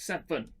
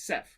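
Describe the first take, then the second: First: The word is said with two full syllables. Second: The word is clipped to one syllable. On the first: It sounds like two notes. The speaker calls it wrong. "sound like I've got two notes, seven, or two, uh, two syllables" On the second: It matches a single note. The speaker calls it right. "So it's sev"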